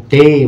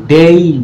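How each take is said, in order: First: "ডে" slowly on a plain e, no i-glide; pure "এ" ending. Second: "ডেই" with an audible "ই" after the e; "এই" glide ending. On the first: Shown as a demonstration. Teacher showing the word for day, pure "এ" ending. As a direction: hold "ডে" on one pure vowel. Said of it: "এ sound দিয়ে থাকে". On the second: Retold or imitated. Teacher showing how many people say it, "এই" glide ending. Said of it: "কিন্তু অনেকে এটা".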